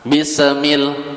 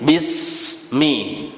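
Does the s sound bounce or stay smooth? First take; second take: bounce; smooth. First: The s is bounced with an echoing release. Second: The s flows smoothly with no bounce. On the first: The speaker calls it wrong. "Jangan bismil" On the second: The speaker calls it right. "tapi bismi"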